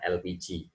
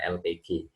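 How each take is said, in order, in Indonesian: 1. Diucapkan sebagai satu kata, elpiji. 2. Setiap huruf diucapkan terpisah, el pe ge. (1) "kebiasaannya sudah enak menggunakan L P G" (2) "kaidah yang benar adalah L P G"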